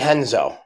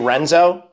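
First: The name begins with an H sound. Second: The name begins with an R sound. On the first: "the R's are pronounced as H's" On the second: "Did you say Renzo?"

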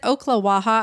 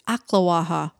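First: The first syllable sounds like oak. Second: The first syllable sounds like ock. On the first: The speaker calls it wrong. "I've been saying it like that too" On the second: The speaker calls it right. "It's Oklawaha"

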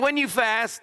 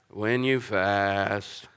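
First: It is said in a normal tone. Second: It is said in a gloomy voice like Eeyore.

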